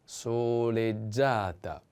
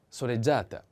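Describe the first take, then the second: First: "soleggiata" drawn out syllable by syllable; slow model pronunciation. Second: Said in the usual way. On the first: Shown as a demonstration. Teacher models the feminine form, slow "soleggiata". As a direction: stretch each vowel of "soleggiata" slowly.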